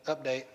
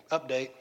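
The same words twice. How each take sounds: The two takes are said the same way.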